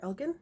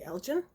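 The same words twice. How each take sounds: First: Elgin with a hard g, like "EL-ghin"; hard-g pronunciation. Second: Elgin with a soft g, like "EL-jin"; soft-g pronunciation. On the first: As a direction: say Elgin with the g of "give". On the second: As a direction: say Elgin with a j sound in the middle. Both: Shown as a demonstration. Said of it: "not sure how to pronounce it".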